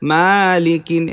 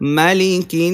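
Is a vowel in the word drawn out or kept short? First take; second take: drawn out; short. First: A vowel in the word is drawn out long. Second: The vowels in the word are kept short. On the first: The speaker calls it wrong. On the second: The speaker calls it right.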